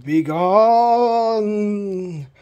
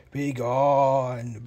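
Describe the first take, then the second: First: Louder, rising ghostly wail; drawn-out booming ghost command; unearthly voice. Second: Low, eerie ghostly warning; drawn-out spooky command; unearthly voice. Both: Acted. Ghost voice threatens visitors.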